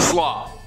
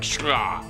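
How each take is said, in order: First: The name begins with a plain s sound. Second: The name begins with a sh sound. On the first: The speaker calls it wrong. "I am pronouncing that name wrong" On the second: The speaker calls it right. "It's probably something more like shra"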